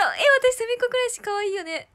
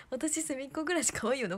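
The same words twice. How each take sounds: First: Excited gush. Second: Said in the usual way. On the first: Real, not acted. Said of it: "日本語おかしかった". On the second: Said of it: "おかしいね".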